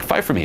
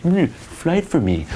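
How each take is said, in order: First: Easy, matter-of-fact teasing demand; playful challenge. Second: Slow, high mock-sulky whine; butthurt. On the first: Coach showing guys the right way, playful. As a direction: toss it out without sulking. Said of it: "introduce it that way". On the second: Coach showing guys what not to do, butthurt. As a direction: whine it like a wounded sulker. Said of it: "Don't be all butthurt". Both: Shown as a demonstration.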